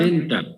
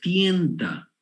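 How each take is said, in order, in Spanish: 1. La primera sílaba tiene una e simple. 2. La primera sílaba tiene un diptongo ie. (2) "Esa es la manera que es correcta"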